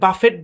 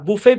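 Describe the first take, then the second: First: The final t sound is pronounced. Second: The final t sound is left out. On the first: The speaker calls it wrong. "এই শব্দটাকে আমরা অনেকে বাফেট বলি, কিন্তু বাফেট না" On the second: The speaker calls it right. "বুফে বা বাফে"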